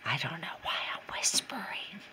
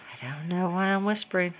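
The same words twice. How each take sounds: First: Amused self-aware whisper; whispering about whispering. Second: Said in the usual way. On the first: Real, not acted. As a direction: breathe it out, no voice.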